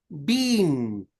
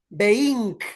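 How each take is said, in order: First: The final g is silent, ending in ng. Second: The final g is sounded as a hard g. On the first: The speaker calls it right. "You say working, dancing, being" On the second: The speaker calls it wrong. "People don't say being"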